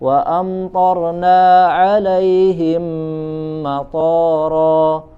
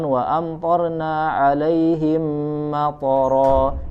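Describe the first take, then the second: First: The vowel after t in matara is long. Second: The vowel after t in matara is short. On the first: We sent down airports upon them. The speaker calls it wrong. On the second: We sent down rain upon them. The speaker calls it right.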